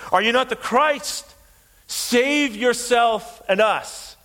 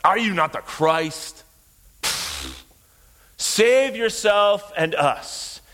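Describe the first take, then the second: First: Preacher acting out a jeering shout; shouted taunt. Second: Slow sneering taunt with a dismissive puff; scornful mockery. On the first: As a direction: hurl it as a shouted mockery. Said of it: "He's shouting blasphemies". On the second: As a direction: draw it out with open contempt. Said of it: "Or more like".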